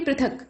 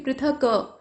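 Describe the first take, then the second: First: The final k is short and clipped. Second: The final k is drawn out with a vowel. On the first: The speaker calls it right. "मतलब क को जल्दी से बोल देंगे" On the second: The speaker calls it wrong. "खींच कर आप उच्चारण ऐसे नहीं करेंगे"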